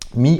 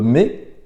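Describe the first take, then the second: First: The vowel sounds like 'ee', the English reading. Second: The vowel sounds like 'ay', a French-style reading.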